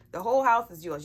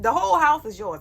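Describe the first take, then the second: First: Said in the usual way. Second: Higher, louder, proclaiming it; loud declaration. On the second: Acted. Mother telling her kids the house is theirs, loud and high. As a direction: announce it big to the kids.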